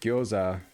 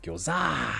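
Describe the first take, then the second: First: The stress is on the first syllable. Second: The stress is on the second syllable.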